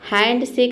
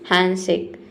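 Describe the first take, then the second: First: The d sound in hand is pronounced. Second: The d sound in hand is dropped. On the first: The speaker calls it wrong. "हैंड शेक नहीं" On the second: The speaker calls it right. "हम बोलते हैं हैंडशेक"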